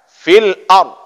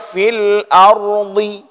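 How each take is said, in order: First: The word ends on a silent final consonant. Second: The word ends with a short vowel sound. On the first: The reciter stops at this word. The speaker calls it right. "Tetap berhentinya dengan huruf mati" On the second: The reciter stops on a voweled letter. The speaker calls it wrong. "Tidak boleh baca fil ardi"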